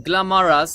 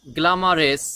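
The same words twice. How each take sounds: First: গ্ল্যামারাস ending in an open "-ras", "gla-ma-ras"; common mispronunciation. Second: গ্ল্যামারাস ending in "-res", "gla-ma-res"; standard pronunciation. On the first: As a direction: say গ্ল্যামারাস with a full a in the last syllable. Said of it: "এভাবে না বলে". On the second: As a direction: say গ্ল্যামারাস with an e in the last syllable. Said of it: "এভাবে বলতে পারি". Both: Shown as a demonstration.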